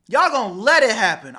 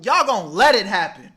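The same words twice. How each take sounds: First: Louder repeat, higher pitched; emphatic scolding. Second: Loud, pressing scold; emphatic scolding. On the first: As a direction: drive the point home harder. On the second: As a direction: hammer it home to them. Scolding the audience. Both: Real, not acted.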